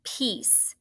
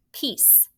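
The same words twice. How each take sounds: First: Said in the usual way. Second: The word Peace whispered, unvoiced. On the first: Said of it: "Say it". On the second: Shown as a demonstration. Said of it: "do you remember that signal".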